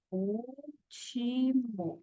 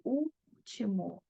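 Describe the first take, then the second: First: "último" in slow, soft, separate syllables; split into syllables. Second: "último" with a long held U at the start; stressed first syllable. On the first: Teacher separating the word for students, syllable by syllable. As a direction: say "último" as úl-ti-mo, each syllable held. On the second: Teacher showing the strongest syllable, long first syllable in "último". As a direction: stretch the ÚL of "último", slow and soft. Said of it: "Sílaba mais forte é o U". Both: Shown as a demonstration.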